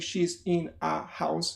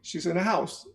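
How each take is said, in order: First: Every word gets equal, separate stress. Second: Only the word house is stressed. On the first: The speaker calls it wrong. "they're not going to say she's in a house, because that's not the way English works" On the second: The speaker calls it right. "They will say slowly, ... you have house as the accent"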